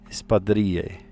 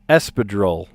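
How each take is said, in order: First: The word is said Spanish-style, double L as y. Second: The word is said with an American English pronunciation. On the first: "Doesn't the L L make a certain sound in Spanish and a y sound?" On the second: "you totally Americanize it"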